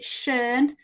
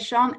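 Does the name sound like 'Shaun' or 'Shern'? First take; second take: Shern; Shaun. First: The name is said with an 'er' vowel. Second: The name is said like 'Shaun'. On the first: This is the accepted way to say the name. "I think you pronounce it Shern" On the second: This is how a northern speaker says the name. "I'm a bit northern, so I still say Sean"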